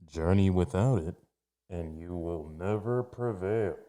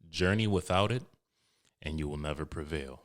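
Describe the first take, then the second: First: It is said in a put-on villain character voice. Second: It is said in his ordinary speaking voice.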